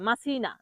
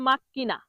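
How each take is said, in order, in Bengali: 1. মাঝের ব্যঞ্জনটি s ধ্বনি। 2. মাঝের ব্যঞ্জনটি একটি দীর্ঘ k ধ্বনি। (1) "যারা জানে না তারা এরকম বলে" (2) "সঠিক উচ্চারণ কি হবে?"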